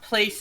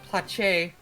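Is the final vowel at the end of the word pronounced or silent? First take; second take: silent; pronounced. First: The word ends without an extra vowel sound. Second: The word ends with an extra vowel sound. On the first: "It's not place anymore" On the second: "pronounce the e, the silent e at the end"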